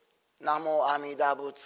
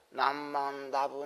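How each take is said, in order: First: The phrase is said slowly with every syllable. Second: The phrase is said quickly with syllables merged.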